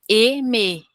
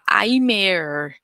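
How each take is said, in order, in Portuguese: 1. A primeira vogal é falada como um 'e' simples. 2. A primeira vogal é falada como 'a-i'. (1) "e não, é eme" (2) "Outra coisa que acontece muito em quem estuda sozinho é falar aimer"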